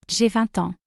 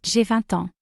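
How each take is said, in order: Both takes have the same delivery.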